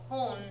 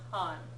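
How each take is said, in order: First: The syllable has an 'o' vowel. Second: The syllable has an 'a' vowel. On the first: The speaker calls it right. "make sure you're pronouncing it kon" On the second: The speaker calls it wrong. "not kan"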